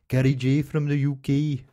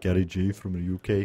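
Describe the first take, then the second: First: A Brummy accent attempt in a higher voice. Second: A Brummy accent attempt in a deeper voice. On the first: The speaker calls it wrong. "That's not quite right, is it?" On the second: The speaker calls it right. "better. It was just deeper"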